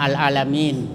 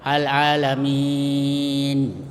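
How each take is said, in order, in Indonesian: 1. Vokal panjang terakhir ditahan sebentar, dua harakat. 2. Vokal panjang terakhir ditahan sedang, empat harakat. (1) "dibaca dua harakat, satu alif, yaitu dibaca pendek biasa" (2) "dibaca sedang, ya, empat harakat atau dua alif"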